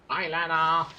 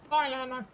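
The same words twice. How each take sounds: First: Said in the usual way. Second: "Hi, Lana" pitched way up; high squeaky greeting. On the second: Shown as a demonstration. Gamer greeting a character in a high squeak.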